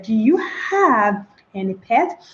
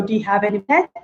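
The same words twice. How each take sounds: First: "Do you have any pet." slow and mechanical, each word apart; a stiff, word-by-word question; slow, separated words. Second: "Do you have" run together as one word, "pet" alone; merged do you have. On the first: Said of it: "That is rather unacceptable". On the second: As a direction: glide through "Do you have", then "pet". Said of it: "meshed together as one". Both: Shown as a demonstration.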